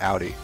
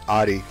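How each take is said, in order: First: The first vowel sounds like 'ow' in cow. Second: The first vowel sounds like 'aw' in audio. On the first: "not Audi, O U" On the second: "it's like Audi, audio"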